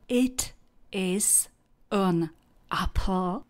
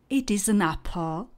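First: Each word is said separately, without linking. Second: The words run together as one linked phrase. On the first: It sounds robotic to native speakers. The speaker calls it wrong. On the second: This is how a native speaker says it. The speaker calls it right.

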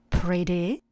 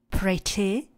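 First: The middle consonant sounds almost like d. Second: The middle consonant is a clear t. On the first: "americkou výslovnost, kde to t přechází tak trošku do d" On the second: "místo pretty"

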